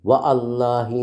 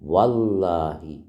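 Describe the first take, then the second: First: The 'a' of 'Allah' is pronounced separately. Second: The 'a' of 'Allah' is dropped and merged. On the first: The speaker calls it wrong. "വ അല്ലാഹി എന്നാണോ നമ്മൾ സത്യം ചെയ്ത് പറയാ? അല്ല" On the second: The speaker calls it right. "അലിഫ് ഉച്ചരിക്കുന്നില്ല"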